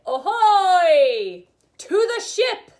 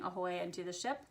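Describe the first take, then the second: First: Loud, high belted call; pirate chest voice. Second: Said in the usual way. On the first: Shown as a demonstration. Teacher demonstrating chest voice for fun, pirate shout. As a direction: holler it like a pirate across the deck. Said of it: "ways to use our chest voice".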